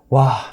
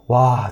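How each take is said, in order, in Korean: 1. 짜증 나고 불쾌한 느낌이에요. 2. 아쉽고 실망한 느낌이에요. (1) "계속 진 것에 대한 약간 짜증" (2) "뭔가 아쉽다는 의미"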